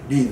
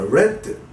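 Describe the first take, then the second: First: The word does not sound like 'red'. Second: The word sounds the same as 'red'. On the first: It means to read, in the present. "読むという意味のread" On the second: It means read, in the past. "赤のred と同じ発音です"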